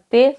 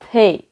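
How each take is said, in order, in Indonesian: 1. Bunyi t-nya polos, tanpa hembusan napas. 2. Bunyi t-nya diikuti hembusan napas. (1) "Huruf T kita sebutnya T biasa kan" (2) "ada ada unsur H-nya di, di setelah huruf T"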